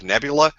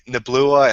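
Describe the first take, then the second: First: The L sound comes after the U sound. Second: The L sound comes before the U sound. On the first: The speaker calls it right. "instead of nebula" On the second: The speaker calls it wrong. "I say neblua"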